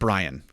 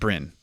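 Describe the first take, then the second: First: The name has a long 'eye' vowel. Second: The name has a short 'i' vowel. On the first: The speaker calls it wrong. "you would pronounce that Brian" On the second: The speaker calls it right. "You wouldn't pronounce that Bryn"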